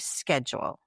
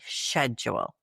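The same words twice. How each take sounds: First: The word begins with an sk sound. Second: The word begins with an sh sound. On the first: This is how the speaker normally says it. "I say schedule" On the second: The speaker does not use this form. "I don't say schedule"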